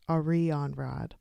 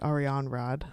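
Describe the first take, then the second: First: Every syllable is pronounced separately and carefully. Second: The syllables run together smoothly and naturally. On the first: The speaker calls it wrong. "I'm saying it like really over enunciated" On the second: The speaker calls it right. "It's probably"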